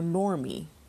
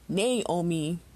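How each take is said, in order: First: An extra R sound is added. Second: An extra A vowel sound is added. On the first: "or Normi" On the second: "people insist on pronouncing it Naomi"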